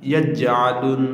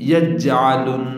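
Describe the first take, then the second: No difference in how they are said.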